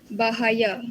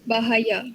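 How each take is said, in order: No difference in how they are said.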